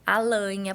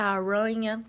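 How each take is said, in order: First: The r is replaced by an l sound. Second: The r sound is distorted and unclear. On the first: "ela faz a troca do som, que geralmente é pelo L" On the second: "Ou ela faz a distorção do som"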